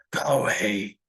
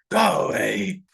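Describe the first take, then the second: First: Low whispered go away; ominous order. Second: Louder barked go away; sudden shout. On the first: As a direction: warn him off under your breath. Grandfather orders child away. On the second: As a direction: snap at the child to leave. Grandfather shouts at child. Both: Acted.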